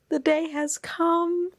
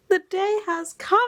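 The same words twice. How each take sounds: First: High, slow herald; grand announcement. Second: Even higher, mock old-English proclamation; mock herald. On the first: Real, not acted. To viewers, a high, slow herald of arrival. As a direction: proclaim it like a big event. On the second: To viewers, hammed-up herald with "cometh". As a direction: ham up "cometh" like a town crier.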